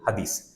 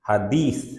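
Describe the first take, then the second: First: It uses plain Bengali d and s consonant sounds. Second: It uses the Arabic dh and th consonant sounds. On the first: "আমরা সহজ সরল ভাষায় বলি হাদিস" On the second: "আরবির ভিত্তিতে হাদিস এরকম হয়"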